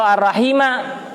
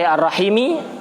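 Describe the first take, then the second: First: The word ends with an a vowel. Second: The word ends with an i vowel. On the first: It is the object of an omitted verb. "dibaca nasab menjadi maf'ul bih" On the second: It describes the preceding attribute. "ikut dibaca jer"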